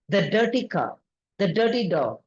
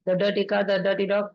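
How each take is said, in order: First: Each item is followed by a clear pause. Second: The items are run together quickly without pauses. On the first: The speaker calls it right. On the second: The speaker calls it wrong.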